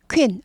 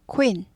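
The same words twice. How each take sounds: First: The k goes straight into the vowel. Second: A short, quick 'oo' sound follows the k. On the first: The speaker calls it wrong. "queen 아니고 queen" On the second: The speaker calls it right. "쿠인인데 쿠를 짧게 빨리 하죠"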